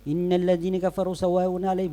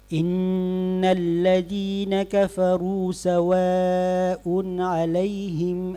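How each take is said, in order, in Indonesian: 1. Dibaca terburu-buru sampai harakatnya jadi pendek. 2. Dibaca cepat, panjang harakatnya tetap penuh. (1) "Berarti kita sudah kurangi itu" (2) "hadar yang cepat ... tidak mengurangi harakat"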